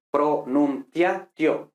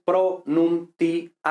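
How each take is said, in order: First: "pronunciatio" slowly split as pro-nun-tia-tio; four syllables. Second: "pronunciatio" slowly split as pro-nun-ti-a-ti-o; six syllables. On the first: Teacher counting the mistaken syllables, four syllables. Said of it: "cuatro sílabas". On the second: Teacher correcting to the Latin reading, six syllables. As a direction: count out "pronunciatio" in six separate beats, each vowel apart. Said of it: "seis sílabas". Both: Shown as a demonstration.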